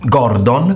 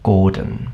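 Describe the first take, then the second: First: The second syllable has a full O vowel. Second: The second syllable has a weak, E-like vowel. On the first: "didn't pronounce it Gord- Gordon" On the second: "but pronounced it Gordon"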